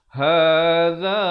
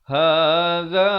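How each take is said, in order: Both takes have the same delivery.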